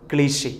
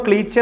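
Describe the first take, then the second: First: ക്ലീഷെ with a soft "sh"; correct pronunciation. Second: ക്ലീച്ചെ with a hard "ch"; common misreading. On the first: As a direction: say ക്ലീഷെ as "klee-SHAY". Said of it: "കൃത്യമായ ഉച്ചാരണം". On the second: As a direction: say ക്ലീച്ചെ as "KLEE-chay". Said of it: "നമ്മളത് വായിക്കുമ്പോൾ". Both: Shown as a demonstration.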